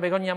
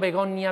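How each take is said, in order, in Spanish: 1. Se dice rápido y la n se convierte en ñ. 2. Se dice despacio con una n simple.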